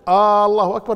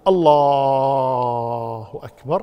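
First: The first vowel of the phrase is drawn out. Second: The l sound in the first word is drawn out. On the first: It turns the phrase into a question. "لكن لو قال مد الألف الله أكبر لا يجوز" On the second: The meaning is not changed. "لو مد لفظ الجلالة اللام في لفظ الجلالة ما يضر"

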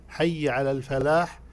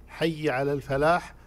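The two takes are said the same way.

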